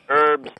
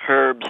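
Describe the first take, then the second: First: It is said with the h dropped, Cockney-style. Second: It is said with the h sounded, Queen's English.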